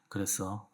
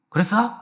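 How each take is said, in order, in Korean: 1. 낮고 부드러운 음으로 말합니다. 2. 높고 날카로운 음으로 말합니다. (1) "도시라솔 파미 정도 해가지고" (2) "이렇게 하시면 안 돼요"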